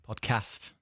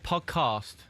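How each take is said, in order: First: It is said in a plain accent. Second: It is said in a posh accent.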